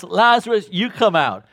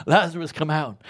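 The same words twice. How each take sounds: First: Lazarus shouted high and loud; loud call. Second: Said in the usual way. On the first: Acted. Jesus singles out Lazarus at the tomb, loud summoning call. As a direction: summon him by name, full voice. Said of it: "Jesus specifies and says". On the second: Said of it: "quoting Jesus again".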